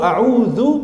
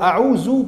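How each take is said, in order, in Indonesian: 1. Huruf tengahnya bunyi 'dh' yang lembut. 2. Huruf tengahnya bunyi 'z' yang berdengung. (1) "pakai dzal" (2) "pakai zai"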